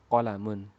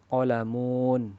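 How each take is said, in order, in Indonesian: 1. Semua vokal dibaca pendek. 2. Vokal dibaca panjang. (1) "Qolamun itu pendek" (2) "Tidak boleh dibaca qolamun"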